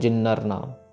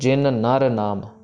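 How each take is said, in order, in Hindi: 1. दोनों न की आवाज़ें मिलकर एक हो जाती हैं। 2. दोनों न की आवाज़ें अलग-अलग बोली जाती हैं। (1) "नॉट जिन्नर नाम" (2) "जिन का नन्ना प्रॉपर ख़त्म होगा, फिर नर का नन्ना स्टार्ट होगा"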